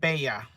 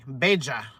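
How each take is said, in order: First: The double L sounds like an English Y. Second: The double L sounds like an English J. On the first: "She said Bella. ... pronounced like a Y" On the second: "that Y is a J"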